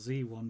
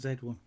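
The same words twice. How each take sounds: First: The letter Z is said the American way. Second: The letter Z is said the British way. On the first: "doing it American style" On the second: "rather than"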